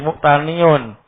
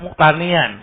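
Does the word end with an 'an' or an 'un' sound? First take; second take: un; an. First: The word ends with an 'un' sound. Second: The word ends with an 'an' sound. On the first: The speaker calls it right. "tapi muktaniun" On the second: The speaker calls it wrong. "tidak muktanian"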